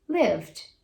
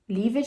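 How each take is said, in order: First: The ending is only a d sound. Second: The ending is said as a separate syllable. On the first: The speaker calls it right. "Depois do v, você só faz o D" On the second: The speaker calls it wrong. "Lived não"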